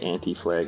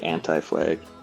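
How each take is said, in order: First: The name is said the Canadian way. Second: The name is said the non-Canadian way. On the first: This is how people in Canada say it. "We always say Anti Flag up here in Canada" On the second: This is how the listener's people say it. "I think you guys say Anti Flag"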